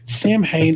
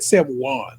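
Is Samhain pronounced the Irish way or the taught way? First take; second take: taught way; Irish way. First: It is said the way the speaker was taught. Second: It is said the Irish way. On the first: The speaker calls it wrong. "is how I pronounce it because it's how I've been taught to pronounce it" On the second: The speaker calls it right. "They pronounced it the Irish way"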